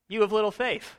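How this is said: It sounds playful and good-naturedly teasing. The listener is being ribbed by a friend. "almost nudging him like a buddy"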